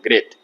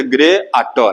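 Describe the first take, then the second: First: Said in the usual way. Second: ग्रेट broken into "ग्रे आ टो"; wrongly split word. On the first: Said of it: "ग्रेट एक ही बार में बोल देते हैं". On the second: Shown as a demonstration. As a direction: say ग्रे, then a separate आ टो, as the mistake. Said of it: "ऐसा नहीं बोलते".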